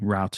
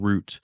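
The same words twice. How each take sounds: First: It is said in an American accent. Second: It is said in a British accent.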